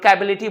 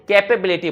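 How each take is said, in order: First: The middle 'pe' syllable is left out. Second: The middle 'pe' syllable is clearly said. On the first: The speaker calls it wrong. "लोग कैबिलिटी बोलते नहीं" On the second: The speaker calls it right. "कैपेबिलिटी बोला जाता है"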